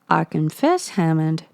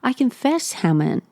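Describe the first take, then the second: First: It is spoken in a Midwestern cowboy accent. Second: It is spoken in a New York accent. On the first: The speaker calls it wrong. "all of my American accents definitely turn into uh, that kind of like Midwestern cowboy" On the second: The speaker calls it right. "They're in New York, aren't they?"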